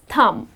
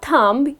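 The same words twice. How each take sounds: First: No b sound is heard at the end. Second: A b sound is heard at the end. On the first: The speaker calls it right. "The correct pronunciation is thumb. The letter B is silent" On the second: The speaker calls it wrong. "It's not thumb"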